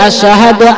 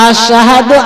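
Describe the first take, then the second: Both takes have the same delivery.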